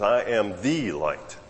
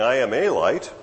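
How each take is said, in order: First: "the" said as a long "thee", drawn out slowly; slow, weighty "the" before "light"; stress on THE. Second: "a" said as a full "ay", punched in "a light"; contrastive, emphatic "a"; stress on A. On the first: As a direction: stretch "the" to mean the only one. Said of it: "He says". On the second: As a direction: lean on "a" as if one among many. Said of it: "because he's not saying". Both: Shown as a demonstration.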